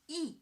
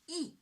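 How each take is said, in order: First: The pitch falls sharply from high to low. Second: The pitch falls sharply from high to low.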